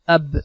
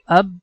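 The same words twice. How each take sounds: First: The final b releases with a short echo bounce. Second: The final b stays closed with no echo. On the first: The speaker calls it right. "naturally the b sound happens, and that is little fast" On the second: The speaker calls it wrong. "if we are going to control the sound like ab, so we we feel little stress"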